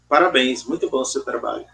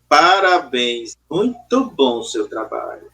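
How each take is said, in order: First: It is said coldly, without emotion. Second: It is said sarcastically, meaning the opposite.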